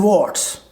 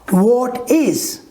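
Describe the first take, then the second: First: It is contracted into one short syllable. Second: It is said as two full separate words.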